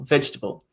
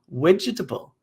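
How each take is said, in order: First: It starts with a v sound, no extra vowel. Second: It starts with a w sound, with an extra vowel. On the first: "There's certain standards and norms about how people say the word vegetable in English" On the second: "there's an influence here from the v to the w sound. There's also an insertion of a vowel that doesn't exist"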